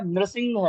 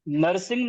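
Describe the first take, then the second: First: The first syllable is said as 'nri'. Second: The first syllable is said as 'na-ra'. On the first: The speaker calls it right. "नृसिंह है" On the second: The speaker calls it wrong. "नरसिंह नहीं है"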